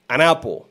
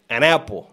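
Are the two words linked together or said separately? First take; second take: linked; linked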